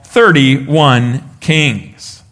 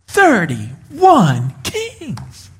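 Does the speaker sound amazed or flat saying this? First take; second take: flat; amazed. First: It is said flatly, with no amazement. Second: It is said with clear amazement. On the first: The speaker calls it wrong. "you're not supposed to read that with a straight face" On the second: The speaker calls it right. "You're supposed to read that going"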